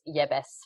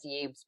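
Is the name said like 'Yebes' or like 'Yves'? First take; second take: Yebes; Yves. First: The name is said like 'Yebes'. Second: The name is said like 'Yves'. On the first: This is how the man's name is really said. The speaker calls it right. "but it's Yebes is how you pronounce it" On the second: This is how the news has been saying it. The speaker calls it wrong. "I know it's been in the news as Yves"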